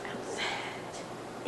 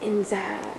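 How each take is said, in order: First: Breathy whisper for outside. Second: Said in the usual way. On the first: Pretend. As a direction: drop to a whisper in the game.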